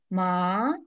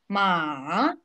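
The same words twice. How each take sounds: First: The pitch rises like a surprised question. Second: The pitch dips down, then rises. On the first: "Второй тон восходящий. Удивляемся" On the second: "Третий тон на американской горке. Вниз и вверх"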